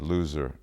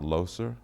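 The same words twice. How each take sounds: First: It is said with an American English pronunciation. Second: It is said with a local, non-American pronunciation. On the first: "We would have said loser in the States" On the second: "I guess that's how you pronounce it"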